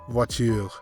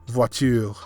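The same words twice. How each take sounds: The two takes are said the same way.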